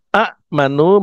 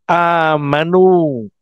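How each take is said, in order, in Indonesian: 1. Hentian glotal mengikuti vokal pertama yang pendek. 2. Vokal pertama panjang tanpa hentian.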